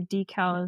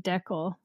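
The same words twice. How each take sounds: First: It is said in a non-Canadian accent. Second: It is said in a Canadian accent.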